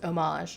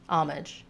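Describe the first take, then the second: First: It is said with a French pronunciation. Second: It is said with an English pronunciation. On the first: "The French original pronunciation is" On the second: "the English loanword pronunciation is"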